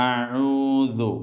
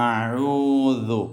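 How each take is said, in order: Both takes have the same delivery.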